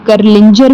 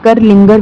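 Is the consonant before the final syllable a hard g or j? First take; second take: j; hard g. First: The name has a j sound before the ending. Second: The name has a hard g sound before the ending. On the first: "आप करलिंजर भी लिख सकते हैं" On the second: "और करलिंगर भी लिख सकते हैं, दोनों तरीके से इसको प्रोनाउंसिएट किया जा सकता है"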